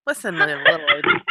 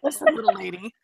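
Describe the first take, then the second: First: Squeaky high breathy whisper of a movie hero line; hammed-up tiny voice, teasing; mock movie line. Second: Lightly raised, slightly put-on voice for the movie line; mock movie line. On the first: Quoting a movie line about Star Wars. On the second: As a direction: say it again as a gentle hammed-up quote.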